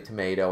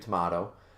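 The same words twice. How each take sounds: First: Tomato is said the American way. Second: Tomato is said the non-American way. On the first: The speaker calls it wrong. "a lot of Canadians still pronounce it the American way" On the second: The speaker calls it right. "we all know it's actually tomato"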